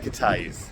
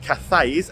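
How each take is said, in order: First: The middle consonant is a plain t sound. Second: The middle consonant is a th sound. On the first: The speaker calls it right. "You say it Cateys" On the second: The speaker calls it wrong. "not Cathays as it is spelt"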